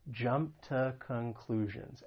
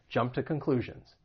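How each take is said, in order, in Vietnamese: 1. Cụm từ này được nói chậm. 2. Cụm từ này được nói nhanh. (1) "I'll say it slowly again so you can hear that ta" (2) "And then when I say it quickly"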